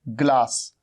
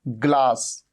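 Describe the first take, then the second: Both takes have the same delivery.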